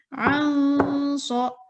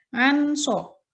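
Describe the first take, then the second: First: The n is nasal, hidden and held. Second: The n is clear and short. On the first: The speaker calls it right. "samar antara suara nun sukun dengan huruf shod" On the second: The speaker calls it wrong. "tidak boleh"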